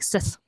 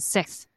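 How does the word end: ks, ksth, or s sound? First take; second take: s; ks. First: The word ends in a plain s sound. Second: The word ends in a ks sound. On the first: "I used to say it really wrong. I used to say like sis" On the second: "I thought I had now been saying it right, like saying six"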